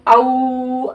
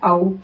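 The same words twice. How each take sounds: First: The vowel is stretched out long. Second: The vowel is said softly and short. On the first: The speaker calls it wrong. "ऐसा खींच के पढ़ दिए तो ये गलत हो गया" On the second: The speaker calls it right. "नरम आवाज़ के साथ पढ़ना है"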